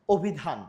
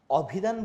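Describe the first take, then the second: First: অভিধান starting with a rounded "o"; অভিধান with its অ turned into ও; closed initial O. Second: অভিধান starting with an open "aw"; অভিধান with the unchanged অ sound; open initial vowel. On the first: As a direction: say অভিধান as "obhidhan". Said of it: "ও দিয়ে হচ্ছে". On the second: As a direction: say অভিধান as "awbhidhan", with অ kept open. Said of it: "আমরা কি অ দিয়ে বলি?". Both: Shown as a demonstration.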